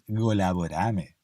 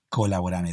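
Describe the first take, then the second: First: The word is said in a softer, gentler way. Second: The word is said in a harder, plainer way. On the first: The speaker calls it right. "como más suavecito" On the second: The speaker calls it wrong. "no es colaborame"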